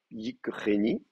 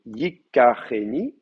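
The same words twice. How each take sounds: First: "yikreni" with no vowel between k and r; pretonic vowel dropped. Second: "yikareni" with a clear a after the k; pretonic vowel kept. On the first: Teacher testing the dropped pretonic, slow demonstration of "yikreni". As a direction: say "yikreni" slowly, k running straight into r. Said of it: "je fais chuter la prétonique". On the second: Teacher keeping his vowel, slow demonstration of "yikareni". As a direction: say "yikareni" slowly, giving the ka its full vowel. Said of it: "je veux garder ma, ma voyelle". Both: Shown as a demonstration.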